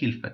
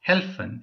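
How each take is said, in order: First: The first vowel sounds like 'i'. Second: The first vowel sounds like 'e'.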